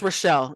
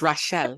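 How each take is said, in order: First: Said in the usual way. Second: Rochelle said with an accent, stressed on the second syllable; accented name. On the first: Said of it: "it's Rochelle in English". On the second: Shown as a demonstration. Giving the name as mother insists, "Rochelle" with an accent. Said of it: "refuses for me to say my names without an accent".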